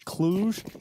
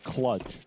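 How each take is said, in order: First: The name is said with its local pronunciation. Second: The name is said with an English pronunciation. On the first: The speaker calls it right. "I'm glad it's Cluj" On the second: The speaker calls it wrong. "we don't say it in the English way"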